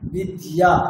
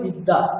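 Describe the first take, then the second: First: The middle consonant is d followed by y. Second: The middle consonant is a doubled d sound. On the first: The ya sound is kept in mind while saying it. "যখন উচ্চারণটা কেমন ইয়া" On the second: This is the everyday Bengali way of saying it. "বাংলাতে আমরা কেমন করি"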